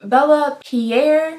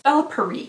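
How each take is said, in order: First: The second word sounds like 'Pierre'. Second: The second word sounds like 'Paris'. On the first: The speaker calls it right. "is this Pierre?" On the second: The speaker calls it wrong. "I've been saying Bella Paris this entire time"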